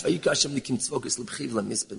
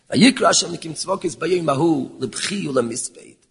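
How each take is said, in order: First: Vayikra Hashem Nikim Tzvokis Lebchi Ulemisped rattled off fast and much softer; quick soft repeat. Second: Vayikra Hashem Nikim Tzvokis Bayoim Ahu Lebchi Ulemisped read out whole, steady and measured; full recital of the verse. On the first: Preacher re-reading the verse before explaining it, fast and soft. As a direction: run back through the verse quickly under the breath. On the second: Preacher quoting the verse to his listeners, measured recital. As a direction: lay out the verse deliberately, word by word. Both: Shown as a demonstration. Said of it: "What is the taich?".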